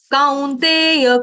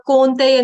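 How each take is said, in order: First: कौन्तेय ending with a full य, drawn out slowly. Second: कौन्तेय with the final य cut off, the wrong way; clipped ya. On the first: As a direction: sound the final य completely in कौन्तेय. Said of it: "य का उच्चारण पूरा". (कौन्तेय, पूरा य) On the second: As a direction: show कौन्तेय without its य. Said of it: "कौन्तेय नहीं". (गलत, कौन्तेय का य छूटा) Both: Shown as a demonstration.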